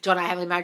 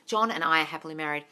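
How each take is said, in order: First: It is said flat and mechanically. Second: It is said warmly, like to a friend.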